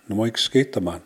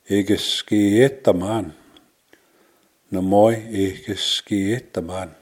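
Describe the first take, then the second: First: "Na moja, ikke skete man" run together without pauses; "Na moja, ikke skete man" contracted into one smooth phrase; fluent-speed demo. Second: Slow "ikke skete man", every syllable drawn out; careful, stretched "ikke skete man"; slow teaching demo. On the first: Same phrase modelled at fluent speed. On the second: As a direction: model "ikke skete man" slowly for learners. Teacher models phrase slowly for learners. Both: Shown as a demonstration.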